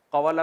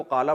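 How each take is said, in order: First: قوالا with the w sounded, ka-wa-la; three syllables in قوالا, ka-wa-la; original uncontracted form. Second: قالا as two syllables, qaa-la; contracted reading. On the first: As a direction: sound out the middle waw in قوالا. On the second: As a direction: drop the w in قالا for a long aa. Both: Shown as a demonstration. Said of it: "قوالا کو قالا پڑھتے ہیں".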